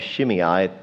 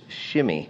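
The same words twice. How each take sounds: First: The name is pronounced the anglicized way. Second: The name is pronounced the Hebrew way. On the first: The speaker calls it wrong. "You might call him Shimei, but that's not really the way you say it in Hebrew" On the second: The speaker calls it right. "It's Shimei"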